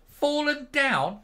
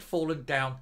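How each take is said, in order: First: High, slow, louder disbelief at fallen down; incredulous echo. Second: Said in the usual way. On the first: Acted. Ranting vlogger echoing the news, scoffing in disbelief.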